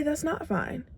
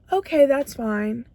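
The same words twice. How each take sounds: First: Softer, pitched higher, a flat no; firm refusal. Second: Resigned acceptance. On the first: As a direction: put your foot down and refuse. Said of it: "But you need to say". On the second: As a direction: shrug it off and settle for it. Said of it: "So you're telling yourself". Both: Shown as a demonstration.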